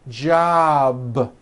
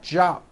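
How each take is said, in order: First: The word ends in a voiced sound. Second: The word ends in an unvoiced sound. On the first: The speaker calls it right. "Job with a voiced B ending" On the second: The speaker calls it wrong. "It's not jop with an unvoiced P"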